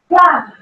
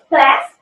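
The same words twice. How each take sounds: First: It is said with a British vowel. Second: It is said with an American vowel.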